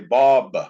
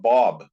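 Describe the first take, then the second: First: The name ends with an added ah vowel. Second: The name ends on the b sound. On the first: "they put an ah on the end" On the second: "when we talk about Bob"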